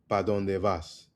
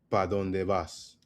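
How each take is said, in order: No difference in how they are said.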